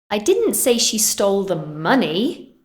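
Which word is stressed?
money. The word 'money' carries the main stress. She took something else. "I said she stole something else"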